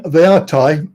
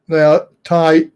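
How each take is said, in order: First: "are" lifted and leaned on, rising; stress on are. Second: "Thai" landed firmly, falling; stress on Thai. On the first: Insisting to a friend that the teachers are Thai, stress on are. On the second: Insisting to a friend that the teachers are Thai, stress on Thai. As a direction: make "Thai" the point. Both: Shown as a demonstration.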